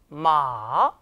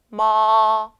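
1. 음높이가 낮게 내려가고, 길게 늘여 발음합니다. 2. 음높이가 높고 평평하게 유지되며, 길게 발음합니다. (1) "3성" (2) "1성"

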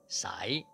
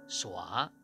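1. 这个音节的元音读作 'ai'。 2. 这个音节的元音读作 'ua'。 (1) "海南话蔡的海南话的文读是SAI 第四个音塞塞" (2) "白读是SUA 第四个音耍耍"

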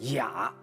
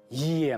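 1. 这个字读 ya。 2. 这个字读 ye。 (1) "你要读成雅" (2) "它不出现在重要的节奏点或者是韵脚，也茫茫，这就要灵活"

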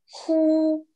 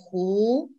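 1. Слог произносится первым тоном. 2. Слог произносится вторым тоном. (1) "Ху в первом тоне значит выдыхать" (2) "Во втором тоне ху, значит озеро"

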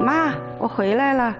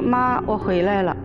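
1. 声音明朗、欢快。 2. 声音低沉、消沉。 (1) "高兴的时间是嗓子亮一点" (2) "不高兴的时间呢，就说"

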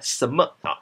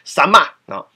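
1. 第二个字读轻声。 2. 第二个字读本调。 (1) "它是轻声对吧？" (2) "那整个台中腔嘛"

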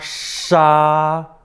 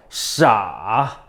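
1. 1성으로 발음해요. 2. 3성으로 발음해요.

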